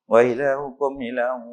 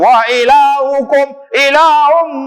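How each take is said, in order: First: It is said quietly and gently. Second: It is said very loudly and drawn out. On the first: Worshippers praying behind can stay focused. The speaker calls it right. "Sikit lah pelan-pelannya" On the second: Worshippers praying behind are disturbed. The speaker calls it wrong. "panjang pula dah. Kuat gila ni"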